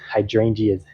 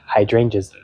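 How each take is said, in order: First: The ending is pronounced like 'geas'. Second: The ending is pronounced the standard way. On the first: The speaker calls it wrong. "I was saying geas" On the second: The speaker calls it right. "but it's hydrangeas"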